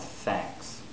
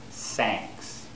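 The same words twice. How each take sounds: First: The word begins with a TH sound. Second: The word begins with an S sound. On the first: The speaker calls it right. "They should pronounce thanks" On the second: The speaker calls it wrong. "Another common mistake is that they'll pronounce S"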